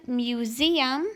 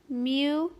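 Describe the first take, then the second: First: Said in the usual way. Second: "mu-ze-um" broken into three separate beats, each vowel held clear; syllable by syllable. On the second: Shown as a demonstration. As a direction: sound out "mu-ze-um" with a pause after each syllable. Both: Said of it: "we hear all of those vowels separately".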